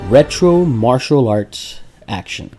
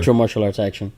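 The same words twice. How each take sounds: First: It is said at a slow, ordinary pace. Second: It is said quickly.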